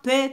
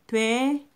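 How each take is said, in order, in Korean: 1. 모음을 짧고 딱 끊어서 발음해요. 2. 모음을 길게 늘여서 발음해요. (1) "짧게 발음해서요. 오히려 더 어색해요" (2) "긴 소리로 발음이 나거든요"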